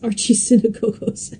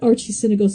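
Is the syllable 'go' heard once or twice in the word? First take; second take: twice; once. First: Both 'go' syllables are said in full. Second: One of the two 'go' syllables is dropped. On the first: The speaker calls it right. "it's archisynagogos" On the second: The speaker calls it wrong. "it's not archisynagogos"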